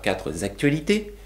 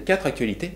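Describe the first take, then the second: First: A z sound links the two words. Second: The words join with no added z sound. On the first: The speaker calls it wrong. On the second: The speaker calls it right.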